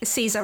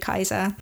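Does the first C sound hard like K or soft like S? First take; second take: soft; hard. First: The first C is soft, like an S. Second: The first C is hard, like a K. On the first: The speaker calls it wrong. "I'm pronouncing wrong as well" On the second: The speaker calls it right. "It should be Kaiser because the Latin does not have soft C's"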